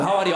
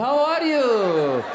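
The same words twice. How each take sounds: First: Put-on quick, run-together Arab accent; hammed-up Arab accent, as if on cocaine; wired Arab accent. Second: Put-on very slow, drawn-out Iranian accent, pitched up; as if nodding off, in an Iranian accent; drowsy Iranian accent. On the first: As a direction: fire it off fast in an Arab accent. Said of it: "like this is cocaine". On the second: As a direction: stretch each word sleepily, Iranian accent. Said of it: "we just shot some heroin, we're falling asleep".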